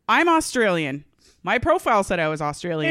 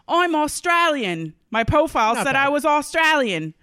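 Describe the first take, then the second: First: It is read in the speaker's ordinary accent. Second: It is read in an Australian accent.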